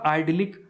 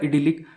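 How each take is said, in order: First: The first syllable sounds like 'eye'. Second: The first syllable sounds like 'ih'. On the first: "Google के अनुसार इसके pronunciation में बोलूं तो वो होगा" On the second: "इसकी हिंदी लिखी थी तो वहां लिखा था"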